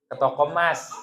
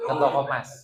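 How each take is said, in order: First: Said in the usual way. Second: Punchline said through a laugh; laughing repeat. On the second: Acted. Preacher repeating the gold-shop joke to the crowd, laughing.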